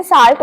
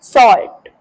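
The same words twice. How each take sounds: First: "साल्ट" said with a long aa; common mispronunciation. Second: "सॉल्ट" said with a rounded aw; correct pronunciation. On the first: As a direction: open "saalt" vowel in "साल्ट". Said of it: "बहुत सारे लोग इसे साल्ट बोलते हैं". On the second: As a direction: model "सॉल्ट" as SAWLT. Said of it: "इसे बोलते हैं सॉल्ट". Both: Shown as a demonstration.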